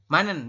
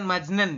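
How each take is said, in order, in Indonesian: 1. Suku kata pertama diakhiri dengan bunyi n. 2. Suku kata pertama diakhiri dengan bunyi j. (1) "jitnya berubah menjadi n" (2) "bukan majnen"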